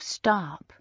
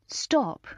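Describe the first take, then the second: First: It is said with an American accent. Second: It is said with an English accent. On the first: The speaker calls it wrong. "American drawl" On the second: The speaker calls it right. "the English way"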